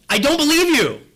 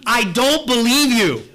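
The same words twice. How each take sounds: First: Louder and higher, still incredulous; higher mock yell. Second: Louder, slow, scornful retort; mock yell at the TV. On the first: Preacher repeating his retort at the commercial, higher mock yell. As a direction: push the disbelief further up. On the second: Preacher yelling back at a TV commercial, mock shout. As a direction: throw it back at the TV with disbelief. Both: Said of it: "I almost feel like yelling back at the T V".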